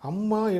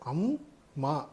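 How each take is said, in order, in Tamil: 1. இது இடைவெளி இல்லாமல் ஒரே சொல்லாக உச்சரிக்கப்படுகிறது. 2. இரண்டு பகுதிகளுக்கும் இடையில் சிறிய இடைவெளி உள்ளது. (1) "அம்மா என்று உச்சரிக்கக்கூடாது" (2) "அம் என்பதற்கும் மா என்பதற்கும் சிறு இடைவெளி விட வேண்டும்"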